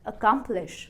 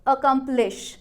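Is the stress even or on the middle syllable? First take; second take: middle; even. First: The middle syllable is louder and longer. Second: All syllables are said with equal, even stress. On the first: The speaker calls it right. "अगर हमने stress किया बीच वाले part को" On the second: The speaker calls it wrong. "अगर हम syllable stress नहीं देंगे तो कैसा सुनाई देगा"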